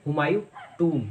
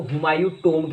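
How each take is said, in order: First: Humayun टूम with a long 'oo' and silent b; taught pronunciation. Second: Humayun टोम with an 'oh' in the last word; common mispronunciation. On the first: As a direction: say Humayun टूम, rhyming with 'room'. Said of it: "इसकी right pronunciation है". (हुमायूं टूम में लंबा 'ऊ') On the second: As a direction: say Humayun टोम, rhyming with 'home'. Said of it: "ज़्यादातर लोग इसको". (Humayun टोम में 'ओ' की ध्वनि) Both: Shown as a demonstration.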